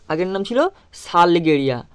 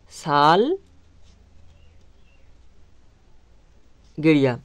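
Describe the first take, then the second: First: Said in the usual way. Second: Very slowly drawn out, word stretched for writing down; slow dictation. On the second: Shown as a demonstration. Teacher dictating the answer to pupils, very slow and drawn out. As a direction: spell it out slowly so the class can write.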